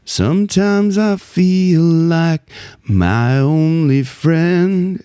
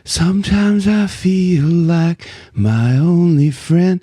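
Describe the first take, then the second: First: It is soft but clear and resonant. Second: It is soft with lots of breathy air.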